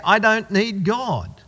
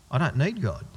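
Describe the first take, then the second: First: "I don't need God" slowed and stressed word by word; slow pointed repeat. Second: Said in the usual way. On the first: Shown as a demonstration. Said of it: "there's the sin right there". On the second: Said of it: "people in the world who go".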